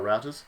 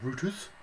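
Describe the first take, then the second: First: It is said with an American accent. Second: It is said with a British accent.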